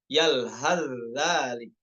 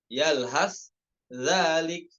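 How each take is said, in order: First: The s sound merges fully into the z. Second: The s sound is kept separate from the z.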